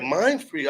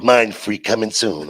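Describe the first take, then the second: First: Questioning repeat of the name; puzzled echo. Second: Low, slow, loud announcement; slow sign read-out. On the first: Questions the sign he read. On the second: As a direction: read it out like a billboard, drawn out. Reads out the statue's sign. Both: Retold or imitated.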